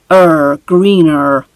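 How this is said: It ends with an R sound, American style. "the American accent"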